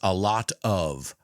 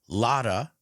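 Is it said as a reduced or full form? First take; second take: full; reduced. First: The words are said fully and separately. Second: The words blend into one reduced word.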